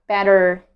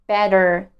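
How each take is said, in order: No difference in how they are said.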